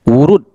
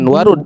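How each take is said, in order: First: The first vowel is a rounded u sound. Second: The first vowel is an open a sound. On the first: The speaker calls it right. "Wurud, wurudan" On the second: The speaker calls it wrong. "bukan warud"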